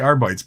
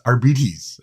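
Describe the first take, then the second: First: The word does not rhyme with diabetes. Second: The word rhymes with diabetes. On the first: The speaker calls it wrong. "I always say Arbites" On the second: The speaker calls it right. "but it's Arbites"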